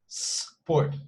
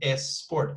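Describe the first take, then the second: First: The word starts directly with the s. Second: An extra e vowel comes before the s. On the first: The speaker calls it right. "So it's just sport" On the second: The speaker calls it wrong. "they somehow include this E sound at the beginning, which doesn't exist"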